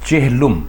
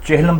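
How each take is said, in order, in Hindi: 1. दूसरा स्वर छोटा 'u' है। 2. दूसरा स्वर छोटा 'a' है। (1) "दुरुस्त लफ्ज़ और इसका दुरुस्त तलफ़ुज़" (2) "चेहलम बिल्कुल गलत है"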